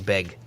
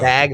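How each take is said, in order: First: The vowel is raised, sounding like beg. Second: The vowel is open, sounding like bag. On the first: This is how the locals say it. "they say beg instead" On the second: This is how the speaker says it. "of saying bag"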